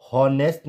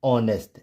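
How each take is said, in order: First: हॉनेस्ट starting on an audible h; mispronounced "honest" as हॉनेस्ट; wrong, h sounded. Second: ऑनेस्ट starting on the vowel; correct, silent h. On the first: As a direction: say हॉनेस्ट as hon-est. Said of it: "नहीं pronounce करेंगे". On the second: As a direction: say ऑनेस्ट as on-est. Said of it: "क्या पढ़ेंगे". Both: Shown as a demonstration.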